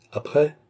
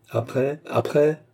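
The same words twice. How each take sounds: First: Dry, clipped question pitched up; terse, higher-pitched prompt; curt. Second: Impatient repeated question, climbing in pitch; edgy, insistent prompting. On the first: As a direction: demand the rest curtly. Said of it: "dit sèchement le baronnet". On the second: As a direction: press for more with rising anger. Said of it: "insista sir Williams, qui commença à frémir de colère". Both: A narrator's reading.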